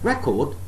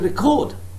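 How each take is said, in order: First: The stress is on the first syllable. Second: The stress is on the second syllable. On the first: It is used as a noun. "If it is a noun, I have to say it as record" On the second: It is used as a verb. "So the second syllable is stressed if I am using the word as a verb"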